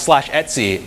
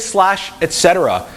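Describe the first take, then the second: First: The word is said short as one word. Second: The word is said in full as three words. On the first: This is the current habit. The speaker calls it right. "now it's slash Etsy" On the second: This is the older habit. The speaker calls it wrong. "I used to say slash et cetera"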